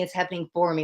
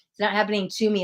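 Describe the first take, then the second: First: "for" leaned on in "It's happening for me"; weight the word "for" to answer "to"; stress on for. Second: "to" leaned on in "It's not happening to me"; weight the word "to" to set it against "for"; stress on to. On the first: Reader reframing for the client, stress on "for". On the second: Reader contrasting to with for, stress on "to". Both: Shown as a demonstration.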